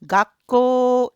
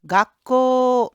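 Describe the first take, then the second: The two takes are said the same way.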